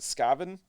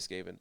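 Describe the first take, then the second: First: The first syllable sounds like 'scav' in scavenger. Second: The first syllable sounds like 'skay', not 'scav'. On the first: This is how someone else wants it said. "he pronounces it Skaven. He says say it like scavenger" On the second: This is the speaker's own preferred way. "I'm gonna say Skaven anyway"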